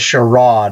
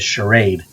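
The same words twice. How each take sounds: First: It is said with a Canadian pronunciation. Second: It is said with an American pronunciation. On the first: "that was the Canadian pronounce pronunciation" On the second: "we'd say in America as charade"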